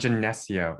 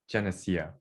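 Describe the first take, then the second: First: The 'eh' sound is heavily emphasized. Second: The 'eh' sound is said lightly. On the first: The speaker calls it wrong. "so not Geneseo. Yeah, that's wrong" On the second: The speaker calls it right. "It's Geneseo"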